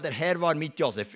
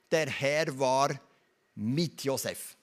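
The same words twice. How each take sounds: First: Said in the usual way. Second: "Der Herr war", pause, then "mit Josef", very slow; slow the verse right down, pausing before "mit Josef"; weighty pause. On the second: Real, not acted. Preacher dwelling on a key verse, slow and weighty.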